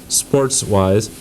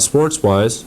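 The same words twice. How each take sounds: First: "sports-wise" set apart and repeated deliberately; stress on SPORTS-WISE. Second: Said in the usual way. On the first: Real, not acted. Host clarifying the show's topic for callers, stressing "sports-wise". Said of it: "I stress the word s". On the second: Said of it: "I stress the word".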